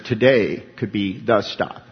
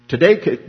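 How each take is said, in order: First: Today said slowly and gravely; slow, weighty warning. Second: Today punched louder and higher; stress on today. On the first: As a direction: let each word land like a warning. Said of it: "they, they emphasize". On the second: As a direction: lean hard on Today. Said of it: "they emphasize". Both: Shown as a demonstration.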